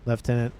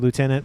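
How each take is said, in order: First: It uses a non-US pronunciation of the word. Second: It uses the US pronunciation of the word. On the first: "but I have said Lieutenant from now and again" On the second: "I'm from the U S, so I say Lieutenant"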